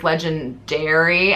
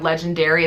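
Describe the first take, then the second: First: The ending is said clearly like 'dairy'. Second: The word is said with its usual ending. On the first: It is the brand name that puns on dairy. "legendary as in dairy milk" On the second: It is the ordinary word. "instead of, you know, legendary"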